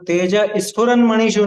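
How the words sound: Tej is said separately before sphuran. The speaker calls it wrong. "तेज स्फुरन मणिषु नहीं"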